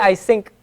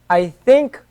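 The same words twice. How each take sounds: First: The word think begins with an s sound. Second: The word think begins with a th sound. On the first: The speaker calls it wrong. "We wouldn't say" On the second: The speaker calls it right. "This is the tha"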